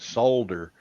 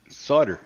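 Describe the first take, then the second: First: It is said with a British pronunciation. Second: It is said with an American pronunciation.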